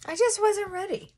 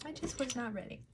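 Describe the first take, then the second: First: Emotional. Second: Quiet. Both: Real, not acted.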